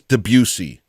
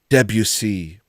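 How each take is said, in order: First: The stress is on the second syllable. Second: The stress is on the first syllable. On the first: "It's like the Gary Busey" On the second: "they put the emphasis on the de"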